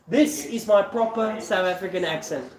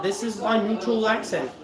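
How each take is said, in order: First: Proper South African accent; South African English, not neutralised. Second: Said in the usual way. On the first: Shown as a demonstration.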